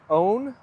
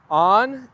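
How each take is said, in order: First: "own" with a long oh vowel; American "own". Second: "on" with an open ah vowel; Irish "on" for own. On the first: Streamer contrasting the other way, long-oh "own". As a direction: stretch "own" slowly on a round oh. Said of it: "you say own". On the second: Streamer showing chat how Ireland says own, open "on". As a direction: say a long, louder "on". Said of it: "In Ireland, we say on". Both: Shown as a demonstration.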